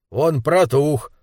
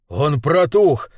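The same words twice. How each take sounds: First: Slow, dug-in assertion; stubborn insistence. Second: Mildly raised, indignant exclamation; indignant outcry. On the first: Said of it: "упрямился лысый мужчина". (упрямо, с растяжкой) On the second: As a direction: cry out in outrage, held back. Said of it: "возмущённый вопль Руди Уэрвика". (возмущённый возглас) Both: Acted.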